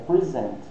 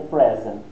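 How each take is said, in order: First: The stress is on the second syllable. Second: The stress is on the first syllable. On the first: It is the verb meaning to present. "se for o verbo, é present" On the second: It is the noun meaning a gift. "Se for o substantivo, aí é present"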